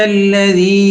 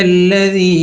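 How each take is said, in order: No difference in how they are said.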